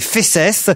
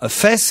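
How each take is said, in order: First: The final S sound is pronounced. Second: The final S sound is silent. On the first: The speaker calls it right. "qu'il faut prononcer euh, le S" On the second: The speaker calls it wrong. "on ne prononce surtout pas fesses"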